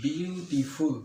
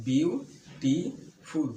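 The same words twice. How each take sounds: First: Said in the usual way. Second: beautiful stretched very slowly into its three syllables, বিউ-টি-ফুল. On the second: Shown as a demonstration. Teacher counting the syllables of beautiful for students, slow and drawn out. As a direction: draw out beautiful so each lip movement shows. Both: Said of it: "আমার ঠোঁট কিন্তু তিনবার লড়ছে".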